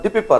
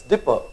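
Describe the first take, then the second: First: Dipper, with the p said twice as di-pi-per; wrong doubled p. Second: Dipper, said as two syllables with a single p; correct single p. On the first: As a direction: split dipper into three syllables, repeating the p. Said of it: "it's giving only one sound". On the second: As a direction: say dipper plainly, one p sound only. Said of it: "double P is giving one sound". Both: Shown as a demonstration.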